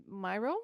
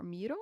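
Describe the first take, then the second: First: First syllable of "Miro" rhymes with "my". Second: First syllable of "Miro" sounds like "me"; Miro as MEE-ro. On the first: Host unsure of the board tool's name, says Miro as MY-ro. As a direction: say "Miro" with a long eye, MY-ro. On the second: Host offers another way to say the tool's name, Miro as MEE-ro. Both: Shown as a demonstration. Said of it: "I never know how to say this".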